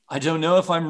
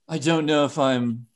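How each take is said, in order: First: The voice is plain and ordinary. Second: The voice is put on to sound sexy.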